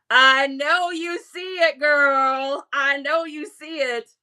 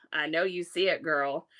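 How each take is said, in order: First: Louder, punchier repeat of the tease; hyped teasing. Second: Said in the usual way. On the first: Acted. To a viewer over the jorts, hyped and teasing. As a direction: hype the jorts up to her.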